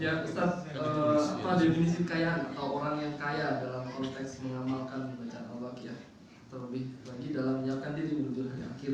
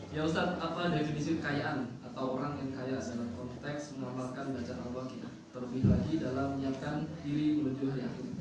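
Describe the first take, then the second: No difference in how they are said.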